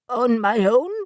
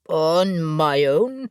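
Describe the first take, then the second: First: The voice is high and squeaky. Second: The voice is lower and more manly. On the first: "His voice sounded squeaky" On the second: "to repeat it in a more manly voice"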